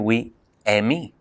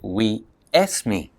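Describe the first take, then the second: First: An e sound comes first and the s drops. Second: An e sound comes before the s. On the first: "They say we Emi" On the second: "They say we esme"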